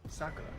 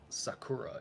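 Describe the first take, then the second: First: The first syllable is stressed. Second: The first syllable is not stressed. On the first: The speaker calls it right. "emphasize the first syllables over the last sim- syllables" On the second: The speaker calls it wrong. "It's not Sakura"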